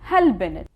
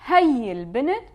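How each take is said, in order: First: The word for 'this' is shortened to a prefix. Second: The word for 'this' is said in full. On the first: "we would say" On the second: "instead of saying this girl"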